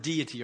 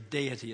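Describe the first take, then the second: First: The word has an American pronunciation. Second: The word has a British pronunciation.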